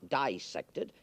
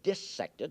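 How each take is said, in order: First: The first syllable sounds like 'dye'. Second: The first syllable sounds like 'diss'. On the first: The speaker calls it wrong. "not dissected" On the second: The speaker calls it right. "you notice I pronounce the word dissected"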